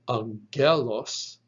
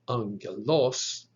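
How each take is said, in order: First: The stress is on the second syllable. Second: The stress is on the third syllable. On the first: "It is not pronounced" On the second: "nor is it pronounced"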